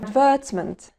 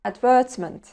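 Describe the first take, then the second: First: It is said with a British accent. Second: The same.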